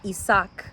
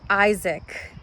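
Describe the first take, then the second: First: The name is said with a non-English pronunciation. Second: The name is said with an English pronunciation.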